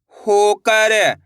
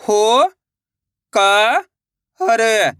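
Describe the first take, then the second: First: Said in the usual way. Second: होकर, stretched slowly, syllables apart. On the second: Shown as a demonstration. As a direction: sound out होकर, in slow pieces. (धीरे-धीरे अक्षर अलग) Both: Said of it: "तो मिलके बन जाएगा".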